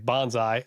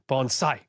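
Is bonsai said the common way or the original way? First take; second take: common; original. First: Bonsai is said the common everyday English way. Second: Bonsai is said the original, more authentic way. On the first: This is how most people say it. "I say bonsai, um, and I feel like that's what I hear most people say" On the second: This is the proper pronunciation of the term. "he says the appropriate pronunciation"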